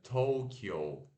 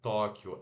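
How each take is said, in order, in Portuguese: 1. É pronunciada à maneira inglesa, como Tokyo. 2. É pronunciada à maneira portuguesa, como Tóquio. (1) "tem que fazer o Tokyo" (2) "não é Tóquio, igual a gente fala em, em português"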